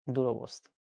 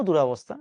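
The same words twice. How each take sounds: First: দুরবস্থা said softly, low and careful as the right form; the corrected দুরবস্থা, quiet and precise; correct pronunciation. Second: দুরবস্থা said as it is often mis-said; the wrong version of দুরবস্থা; wrong spelling-pronunciation. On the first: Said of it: "No দুরবস্থা". (শুদ্ধ উচ্চারণে দুরবস্থা) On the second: (ভুল উচ্চারণে দুরবস্থা) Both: Shown as a demonstration.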